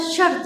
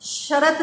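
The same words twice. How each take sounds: First: शर्त with no vowel between र and त; correct pronunciation. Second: शर्त split as "शरत" with an extra vowel; wrong pronunciation demo. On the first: Teacher giving children the right one-syllable शर्त. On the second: Teacher showing children the wrong "शरत" for शर्त. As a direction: say "शरत" wrongly, two full syllables. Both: Shown as a demonstration. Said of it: "शरत नहीं होता".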